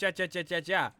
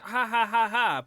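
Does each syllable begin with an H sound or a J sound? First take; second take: J sound; H sound. First: Each syllable begins with an English J sound. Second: Each syllable begins with a breathy H sound. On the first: It is read as strange syllables, not laughter. The speaker calls it wrong. "but not ja ja ja ja ja" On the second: It is read as ordinary laughter. The speaker calls it right. "they pronounce the J as a H in Spanish"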